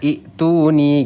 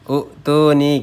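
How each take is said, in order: First: The word begins with an 'i' vowel. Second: The word begins with a 'u' vowel. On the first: The connecting hamza takes a kasrah. The speaker calls it right. "kalau kita kasih baris bawah aturan bacanya i'tuni" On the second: It copies the vowel of the verb's middle letter. The speaker calls it wrong. "ain fiilnya u'tuni gitu ya"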